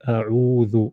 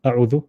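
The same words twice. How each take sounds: First: The vowel is drawn out a little longer. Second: The vowel is short, not drawn out. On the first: The speaker calls it right. "Notice how you're pulling" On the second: The speaker calls it wrong. "you won't say"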